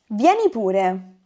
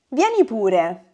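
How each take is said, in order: First: It sounds like a soft, friendly invitation. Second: It sounds like a soft, friendly invitation.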